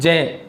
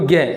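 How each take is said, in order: First: The syllable begins with a J sound. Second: The syllable begins with a G sound. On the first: The speaker calls it right. "तो इसको उच्चारण से जय बोलते हैं" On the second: The speaker calls it wrong. "जबकि अपन बोलते हैं इनको गे"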